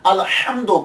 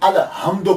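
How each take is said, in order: First: The h is a tense, throaty sound. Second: The h is a plain, soft breath. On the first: The speaker calls it right. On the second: The speaker calls it wrong.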